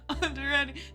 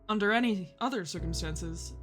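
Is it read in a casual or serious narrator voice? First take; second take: casual; serious narrator. First: It is read casually, amid laughter. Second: It is read in a serious narrator voice.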